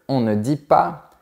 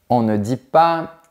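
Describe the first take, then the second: Both takes have the same delivery.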